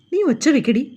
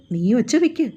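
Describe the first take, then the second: First: Husband taunts his wife, a little higher on നീ; taunting dare. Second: Said in the usual way. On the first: A narrator's reading. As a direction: dare her to scream, sneering at നീ. Husband dares her.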